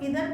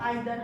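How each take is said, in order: First: The first vowel sounds like 'ee'. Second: The first vowel sounds like 'eye'. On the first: "कई लोग इधर बोलते हैं" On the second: "हम आइदर pronunciation करते हैं"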